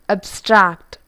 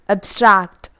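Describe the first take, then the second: The two takes are said the same way.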